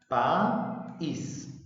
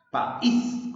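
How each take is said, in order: First: "País" slowly split as pa-ís; "País" with a clear gap between pa and ís; broken into syllables. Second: "País" joined up, punched on "ís"; "País" as one word with a strong ÍS; stress on last syllable. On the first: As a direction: say "País" in two separate, drawn-out syllables. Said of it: "En sílabas". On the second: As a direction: make the final "ís" of "País" ring out higher. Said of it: "Suena más la sílaba is". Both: Shown as a demonstration.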